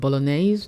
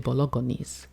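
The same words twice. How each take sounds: First: The G in the word is silent. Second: The G in the word is clearly sounded. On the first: The speaker calls it right. "He can't make so bolognese" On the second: The speaker calls it wrong. "He'll say bolognese"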